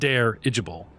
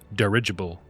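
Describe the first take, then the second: First: The first syllable sounds like 'dare'. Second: The first syllable does not sound like 'dare'. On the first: The speaker calls it wrong. "not dare-igible" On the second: The speaker calls it right. "That's dirigible"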